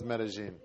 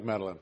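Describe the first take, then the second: First: It is said with a Spanish accent. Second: It is said with an English accent.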